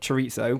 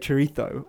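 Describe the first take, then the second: First: It is said with an English-style pronunciation. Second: It is said with a Spanish-style pronunciation. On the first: "I think is how most British people probably pronounce it" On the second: "is a bit try hard?"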